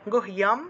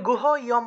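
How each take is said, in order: First: The h and y are joined into one cluster. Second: The h and y are split into separate syllables. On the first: The speaker calls it right. "হসন্ত দিয়ে উচ্চারণ করতে হবে" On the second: The speaker calls it wrong. "যদি গুহ ইয়ম বলেন তাহলে কিন্তু হবে না"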